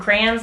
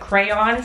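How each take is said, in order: First: The first syllable sounds like 'cran'. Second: The first syllable sounds like 'cray'. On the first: It is the regional Midwest way of saying it. "I think it's a Midwest thing to call them crayons, like cranberries" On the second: It is the common non-regional way of saying it. "instead of crayons"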